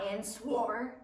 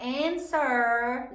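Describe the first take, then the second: First: "and swore" with the W sounded, amused; slow, softer "and swore", clear "swor" ending; wrong pronunciation. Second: "answer" with a silent W; "answer" ending in a plain "ser"; correct pronunciation. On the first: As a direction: mispronounce answer as "and swore", slowly, with a laugh. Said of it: "not and swore". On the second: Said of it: "Write down the correct answer". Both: Shown as a demonstration.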